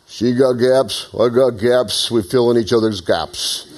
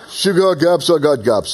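First: Slow, drawn-out tough-guy quote, lightly voiced; a hint of Rocky Balboa, taking his time; Rocky impression. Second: Put-on Rocky's line redone in a light Russian accent; mock Russian accent. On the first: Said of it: "And Rocky gave this". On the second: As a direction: try Philly, land somewhere in Russian. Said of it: "it's a little Russian".

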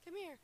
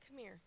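First: High, loud call across the room. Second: Said in the usual way. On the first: Real, not acted. A worship singer calling Wade up to the front, loud. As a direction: call him up so he hears you.

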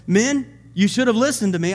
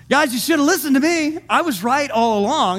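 First: Said in the usual way. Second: Higher-pitched mock I-told-you-so. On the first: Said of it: "Paul stood up among them and said". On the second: Paul to the men who ignored him, mock told-you-so. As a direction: rub it in, voice lifted. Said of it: "That's what he's saying".

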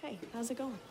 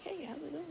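First: Much softer, offhand greeting in passing; a passing cop tossing off a hello; cop's offhand hello. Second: Much softer, higher, put-on breezy hello; fake casual. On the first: Retold or imitated. Policeman glancing over, greeting them much softer. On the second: Sneaking past guards, faking a casual hello. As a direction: play it cool like nothing is wrong. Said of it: "try to act all casual".

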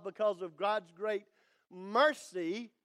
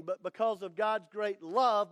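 First: A pause before "mercy", then "mercy" with a lifted rise; stress on mercy. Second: Said in the usual way. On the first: Shown as a demonstration. Preacher swaps in the word mercy for his congregation, pause before "mercy" then a rising "mercy". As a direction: hold back, then land on "mercy". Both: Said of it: "You could put the word mercy there".

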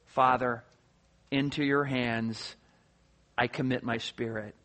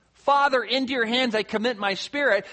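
First: Very low, soft, halting phrases; intimate prayer. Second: Firm opening on Father, easing off; mildly raised voice. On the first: Acted. Jesus on the cross speaking to his Father, hushed and intimate. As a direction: pray it gently, pausing between phrases. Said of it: "the very intimate term". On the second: Retold or imitated. Jesus still strong on the cross, mildly raised cry. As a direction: call it out with some strength, no shout. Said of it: "he says in a loud voice".

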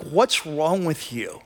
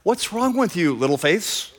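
First: Slow, understated exasperation; irritated. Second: Affectionate. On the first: Irritated disciples to the teacher who slept, irritated. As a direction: ask it with mild, drawn-out irritation. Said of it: "they're just irritated". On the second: Teacher to his frightened disciples, affectionate. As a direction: chide them fondly, lightly acted. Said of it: "his affectionate little term". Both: Acted.

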